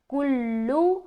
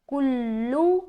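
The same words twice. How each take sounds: Both takes have the same delivery.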